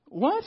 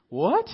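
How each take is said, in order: First: Much higher, loud rising what; even more stunned what; shrill disbelief. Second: Louder, rising what of disbelief; incredulous what. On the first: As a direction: push the disbelief further up. Repeats the reaction, more extreme. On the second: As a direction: react as if it can't be real. Reacting to bazooka in store. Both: Real, not acted.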